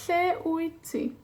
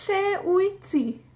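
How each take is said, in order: First: Said in the usual way. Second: High, slow model question. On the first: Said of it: "repeat of model". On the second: Shown as a demonstration. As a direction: sing out Lle wyt ti as a prompt. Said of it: "model question, put-on".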